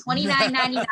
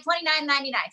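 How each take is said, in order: First: Punchy price call; infomercial. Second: Price called out again; infomercial. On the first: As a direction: repeat the price like a pitchman. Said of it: "I sound like an infomercial". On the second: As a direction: pitchman repeating the price. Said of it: "Should I say it again". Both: Shown as a demonstration.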